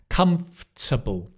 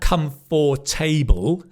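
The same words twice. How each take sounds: First: The middle syllable is dropped, joining F and T. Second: Every syllable is said in full. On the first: The speaker calls it right. "The F and the T are together" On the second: The speaker calls it wrong. "So not comfortable"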